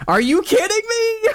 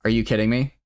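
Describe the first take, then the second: First: High, loud furious scream; real yell. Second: Said in the usual way. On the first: Real, not acted. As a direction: scream it out in disbelief. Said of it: "didn't mean to yell".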